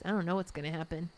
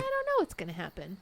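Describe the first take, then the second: First: The voice sounds worried and downbeat. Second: The voice sounds hopeful and upbeat. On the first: The unknown could turn out badly. "you could look at it from the downside" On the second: The unknown could turn out well. "that could be a good thing"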